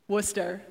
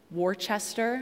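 First: Worcester as two syllables, "WUSS-ter"; local pronunciation. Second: Worcester read as written, "WAR-chester"; spelling pronunciation. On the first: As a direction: squash Worcester down to "WOOS-ter", no "ches". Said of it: "How do you pronounce it?". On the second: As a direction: sound out every part of Worcester, with a "chester" ending. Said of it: "you would swear that the town should be called". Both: Shown as a demonstration.

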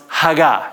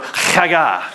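First: Haggah, slow and clear for repeating; plain Haggah. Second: Haggah with a raspy throat-scraped first sound; Haggah, its H rasped in the back of the throat; throaty rasp. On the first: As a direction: say Haggah simply, without throat rasp. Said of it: "pronounced Haggah". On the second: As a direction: start Haggah like coughing up phlegm. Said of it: "that kind of rasply sound in the back of your throat". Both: Shown as a demonstration.

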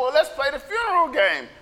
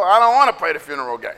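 First: Lightly lifted pitch, falling at the end; mildly eager counter-offer; hopeful kid's suggestion. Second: Low, hurried grumble; quick, dropped-pitch refusal; sulky kid refusal. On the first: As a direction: offer another game instead. Kids proposing another game. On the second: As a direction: shoot the idea down. Kids refusing the second game. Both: Acted.

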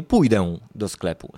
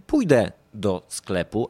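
First: "pójdę" with a heavy nasal ending; slow wrong example, "pójdę" as "pójdeu"; over-pronounced ę. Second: "pójdę" ending in a simple e; slow model sentence with "pójdę" said as "pójde"; denasalised ę. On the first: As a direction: overdo the final ę of "pójdę". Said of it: "a nie". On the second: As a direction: say "pójdę" lightly, no nasal ending. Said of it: "ale mówimy". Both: Shown as a demonstration.

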